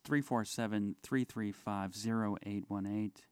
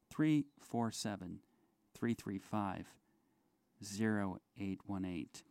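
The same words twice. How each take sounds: First: The number is said at normal speed. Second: The number is said slowly.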